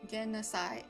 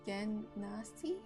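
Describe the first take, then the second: First: The last syllable sounds like sigh. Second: The last syllable sounds like see. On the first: "or is it like Sai?" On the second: "Like Spanish C?"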